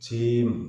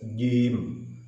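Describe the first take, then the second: First: The j sound releases an audible hiss. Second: The j sound holds back the hiss. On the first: The speaker calls it wrong. "Jangan sampai berbunyi jim" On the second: The speaker calls it right. "Harus jim"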